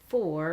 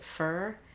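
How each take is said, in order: First: The vowel is a full 'or' sound. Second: The vowel is a reduced 'ur' sound. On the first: This is how the spelling looks. "this looks like, you know, like for" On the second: This is how the word is actually said. "but you pronounce it fur"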